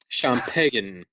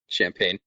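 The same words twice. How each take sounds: First: It is said with an affected French-style pronunciation. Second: It is said with a plain English pronunciation.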